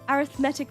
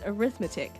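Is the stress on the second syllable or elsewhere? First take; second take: elsewhere; second. First: The stress is not on the second syllable. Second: The stress is on the second syllable. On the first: The word is used as an adjective. "a different pronunciation for like an adjective" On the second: The word is used as a noun. "pronounced with stress on the second syllable"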